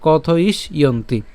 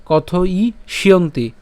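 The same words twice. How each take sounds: First: কথ ইস ইয়ন্তি split as "kotho-ish, iyonti"; broken into parts. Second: Slow কথ ই শিয়ন্তি with sh linked into "yonti"; joined together. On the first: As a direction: stop after "ish" in কথ ইস ইয়ন্তি. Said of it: "আলাদা করে ভেঙে উচ্চারণ করলে". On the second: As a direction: carry the sh over, "kothoi-shyonti". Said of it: "একসাথে বললে". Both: Shown as a demonstration.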